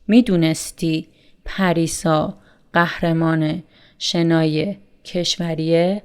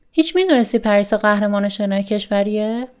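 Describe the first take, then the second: First: Said in the usual way. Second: Emphatic هیچ. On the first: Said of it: "without هیچ". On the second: Shown as a demonstration. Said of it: "used to emphasize more on the question".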